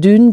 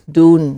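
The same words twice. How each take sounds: First: The oe vowel is said carelessly, not clearly rounded. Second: The oe vowel is said carefully and clearly rounded. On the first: The speaker calls it wrong. "Not doen" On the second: The speaker calls it right. "but make it nice, oe"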